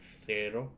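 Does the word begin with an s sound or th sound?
th. It begins with a th sound.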